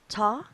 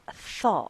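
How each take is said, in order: First: It begins with a hard t sound. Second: It begins with an airy th sound. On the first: The speaker calls it wrong. "It's not" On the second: The speaker calls it right.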